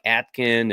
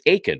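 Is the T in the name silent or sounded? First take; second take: sounded; silent. First: The t sound is clearly pronounced. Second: The t sound is left out. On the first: The speaker calls it wrong. "I'm like Atkin" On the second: The speaker calls it right. "Is the T kind of silent?"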